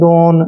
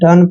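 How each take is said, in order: First: The vowel sounds like 'oh'. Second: The vowel sounds like 'uh'. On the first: The speaker calls it wrong. "ऐसे नहीं पढ़ेंगे" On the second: The speaker calls it right. "डन पढ़ना है"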